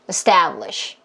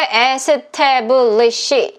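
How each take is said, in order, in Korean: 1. 세 음절이고, 두 번째 음절에 강세를 줘요. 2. 여섯 음절로, 고르고 따로따로 발음해요. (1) "바나나 리듬이랑 똑같이 소리를 내셔야 돼요" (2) "이렇게 하면 안 되고"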